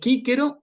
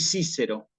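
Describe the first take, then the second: First: The letter C is sounded like a K. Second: The letter C is sounded like an S. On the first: The speaker calls it right. "la tengo que pronunciar como una K" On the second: The speaker calls it wrong. "este error, que es un error bastante grave"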